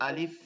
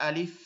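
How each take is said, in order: Both takes have the same delivery.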